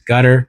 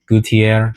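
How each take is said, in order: First: The name is said with an English pronunciation. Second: The name is said with a French pronunciation. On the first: "he has it on the website labeled as Gutter" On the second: "I think is how you pronounce that word in like a French accent or French speaking"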